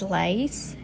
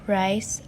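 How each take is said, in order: First: The word starts with an l sound. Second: The word starts with an r sound.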